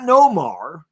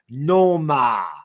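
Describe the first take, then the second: First: The name ends with an R sound. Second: The name ends without an R sound. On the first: This is how the announcers do not say it. "not Nomar" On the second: This is how the Boston announcers say it. "they would always say Noma"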